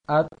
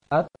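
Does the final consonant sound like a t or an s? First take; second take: t; t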